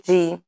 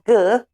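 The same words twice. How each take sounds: First: The g is a soft j sound. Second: The g is a hard g sound. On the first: "È dolce come la C" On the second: "Ha un suono duro"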